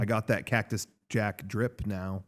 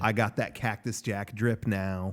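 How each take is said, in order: First: It is said with little confidence. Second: It is said with more confidence.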